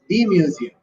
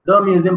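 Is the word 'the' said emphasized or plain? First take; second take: emphasized; plain. First: The word 'the' is said with extra emphasis. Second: The word 'the' is said plainly and lightly. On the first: The speaker calls it right. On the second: The speaker calls it wrong.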